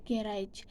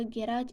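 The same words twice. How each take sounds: First: "garage" meant with second-syllable stress; American "garage" with a full second vowel. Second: "garage" stressed on the first syllable, GA-ridge; British "garage" with a short second vowel. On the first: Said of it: "American pronounce as". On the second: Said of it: "British pronounce, uh, garage as". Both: Shown as a demonstration.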